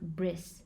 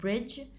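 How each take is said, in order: First: The word ends in an s sound. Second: The word ends in a j sound. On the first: "becoming bris" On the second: "J often becomes s"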